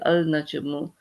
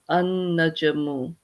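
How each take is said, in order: First: The L of the article is clearly pronounced. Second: The L is silent and the N is doubled. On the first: The speaker calls it wrong. "If you read it, you know exactly for the letters that are there, it would be al najamu" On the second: The speaker calls it right. "this actually becomes silent because this noon is a um, sun letter"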